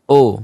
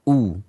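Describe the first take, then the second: First: The vowel drifts toward an o sound. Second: A clear u with lips pushed forward. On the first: The speaker calls it wrong. "Bisa jadi o atau u" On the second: The speaker calls it right. "kedua bibir kita, ya, mencucu atau maju"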